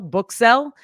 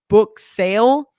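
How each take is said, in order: First: The last word has the short 'sell' vowel. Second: The last word has the long 'sale' vowel. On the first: The speaker calls it wrong. "if you say sell, book sell" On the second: The speaker calls it right. "it should have been book sale"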